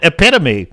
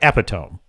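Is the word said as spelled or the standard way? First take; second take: standard; as spelled. First: The word has its standard accepted pronunciation. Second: The word is read out just as spelled. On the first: The speaker calls it right. "accurately pronounce the word epitome" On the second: The speaker calls it wrong. "if you pronounce it phonetically, it looks like epitome"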